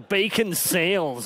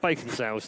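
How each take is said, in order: First: It is said in a put-on American accent. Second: It is said in his usual non-American accent.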